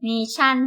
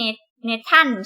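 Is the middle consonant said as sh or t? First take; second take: sh; t. First: The middle consonant is an sh sound. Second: The middle consonant is a t sound. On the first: The speaker calls it right. "ตัว t ไม่ออกเสียงตัว t" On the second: The speaker calls it wrong. "ไม่ใช่"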